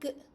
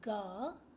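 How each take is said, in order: First: The consonant is said alone without a vowel. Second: The consonant is followed by a short vowel. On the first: The speaker calls it right. "you say g" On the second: The speaker calls it wrong. "You don't say ga"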